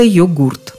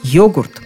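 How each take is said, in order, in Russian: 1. Ударение на втором слоге. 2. Ударение на первом слоге. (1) "еще недавно все словари упорно твердили нам: произносить надо" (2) "сразу с ударением на первом слоге"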